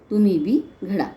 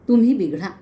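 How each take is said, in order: First: There is a pause after 'bi'. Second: There is no pause after 'bi'. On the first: You too should be shaped well. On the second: You should get spoiled.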